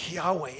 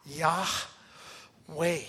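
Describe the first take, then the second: First: Said in the usual way. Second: "Yahweh" drawn out slowly on one long breath; breathed name. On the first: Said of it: "That's God's name". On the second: Shown as a demonstration. Pastor showing the congregation God's name as breath, breathed slowly. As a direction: let "Yahweh" ride out on an exhale, unhurried. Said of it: "world with breathing".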